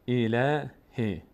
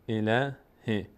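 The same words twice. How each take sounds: Both takes have the same delivery.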